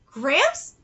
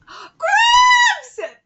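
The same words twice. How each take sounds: First: Said in the usual way. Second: Very high, loud drawn-out cry; gasp, then shriek it in comic disbelief; outraged yell. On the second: Acted. Reacting to being called the nickname, shrieking in disbelief.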